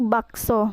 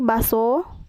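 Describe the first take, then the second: First: The word has a k sound in the middle. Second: The word has no k sound in the middle. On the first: The speaker calls it right. "sedangkan yang benarnya yaitu bakso" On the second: The speaker calls it wrong. "contoh salahnya yaitu baso, tidak menggunakan K"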